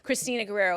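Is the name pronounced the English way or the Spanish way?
English. The name is said with an English pronunciation. This is how she has always said her own name. "I was raised sp- saying"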